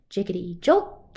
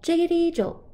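First: Said in the usual way. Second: Jiggity jumps up high and loud; high bouncy jolt. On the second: Acted. Refrain, second take high.

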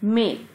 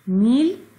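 First: मेल with an "ay" vowel, no ee. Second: मील with a long "ee" vowel; wrong vowel. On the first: Teacher corrects pupils' reading, "ay" sound in मेल. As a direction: say मेल to rhyme with mail. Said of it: "मील नहीं बोलेंगे". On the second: Teacher shows pupils what not to say, ee in मील. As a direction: stretch the ee in मील. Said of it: "नहीं बोलेंगे". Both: Shown as a demonstration.

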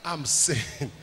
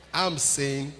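The two takes are said the same way.

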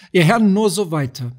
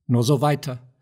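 First: Louder call to the lords. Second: Said in the usual way. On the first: Acted. Saladin repeats, calling out louder.

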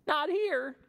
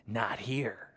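First: High, bright parrot voice; squawky parrot. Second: Whispered crocodile line; sneaky crocodile. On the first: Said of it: "says Parrot". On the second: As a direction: hush it like a lurking croc. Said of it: "says Crocodile". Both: Acted.

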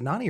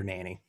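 First: "Nani" said NAH-nee; "Nani", first vowel as in "father". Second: "Nanny" said NAN-ee; "Nanny", first syllable like "nan"; Nanny with short a. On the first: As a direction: say "Nani" with an open ah in the first syllable. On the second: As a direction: say "Nanny" with the a of "cat". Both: Shown as a demonstration. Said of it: "Is it Nani or Nanny".

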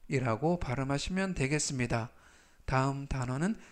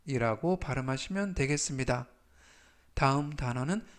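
The two takes are said the same way.

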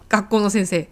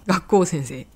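First: Said in the usual way. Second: 学校先生 run together with no の; linking particle dropped. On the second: Shown as a demonstration. Teacher showing omission between linked words, 学校先生 with particle dropped. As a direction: say 学校先生 as one compound, の left out. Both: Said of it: "この時はAすら言いません".

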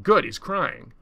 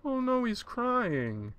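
First: Loud, punched satisfaction; pitiless approval. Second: High, drawn-out mock sympathy; pitying reaction. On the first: Acted. Others react to the tears, loud and unsympathetic. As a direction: punch GOOD, higher and hard. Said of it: "Others are like". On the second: Some people react to the tears, high slow pity. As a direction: coo it slowly, pitched way up. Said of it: "Some people are like".

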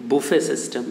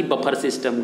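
First: बुफे as "boo-FAY"; correct buffet system. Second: बफर as "buh-phar"; wrong buffet system. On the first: Teacher gives the correct term, बुफे as "boo-FAY". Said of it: "क्या कहते हैं". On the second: Teacher rejects the village form, बफर as "buh-phar". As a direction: put a false r ending on बफर. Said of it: "ना कि". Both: Shown as a demonstration.

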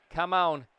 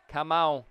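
Both takes have the same delivery.

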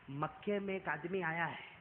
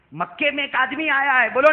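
First: Softer, lower, confiding; a quiet old woman's caution; hushed warning. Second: Higher and louder, hammered home; the same line preached loud; loud repeat. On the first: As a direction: lean in and warn softly. Old woman warns in secret. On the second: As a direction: repeat the warning out to the crowd. Same warning repeated aloud. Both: Acted.

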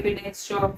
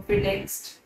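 First: Dropping to a soft murmur; quiet trailing aside. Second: फिर next breathed out in a whisper. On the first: Teacher showing pupils how window shopping drifts, softly. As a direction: let it fade as you drift to the next shop. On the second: Teacher miming window shopping for pupils, in a whisper. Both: Shown as a demonstration. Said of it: "window shopping होता है कि".

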